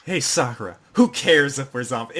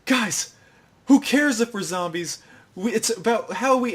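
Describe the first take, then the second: First: Lightly voiced lecture at usual pitch; mildly emphatic retold retort; speech repeated back. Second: High-pitched mock pep talk; rally the group in a hammed-up high voice; eager imitation of an inspired speech; rousing speech. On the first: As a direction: deliver the borrowed speech firmly, unexcited. Just says Sakura's entire speech. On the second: Sakura gives a rousing speech.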